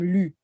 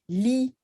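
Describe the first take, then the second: First: The word ends in an 'oo' vowel. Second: The word ends in an 'ee' vowel. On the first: This is the form used in one city's accent. "they have a very specific accent, and then it would become lu" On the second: This is the regular Creole form. "li for regular"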